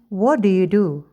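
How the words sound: The voice falls at the end. The speaker calls it right. "Kita mengatakan ... tapi turun"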